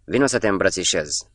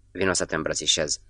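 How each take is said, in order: First: Understated call-out, lifted at the start; mild narrated shout. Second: Said in the usual way. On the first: A narrator's reading. Clapic to the English merchant in the shop, mild shout. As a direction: call it out lightly, without a full shout. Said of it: "strigă".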